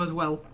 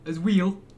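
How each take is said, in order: First: The word well has its usual short vowel. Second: The word well is said like wheel. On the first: "instead of as well" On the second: "wheel instead of well"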